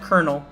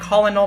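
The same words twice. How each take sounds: First: The first syllable sounds like 'ker'. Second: The first syllable sounds like 'kol'. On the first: The speaker calls it right. "like corn kernel or kettle kernel" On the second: The speaker calls it wrong. "It's not Colonel"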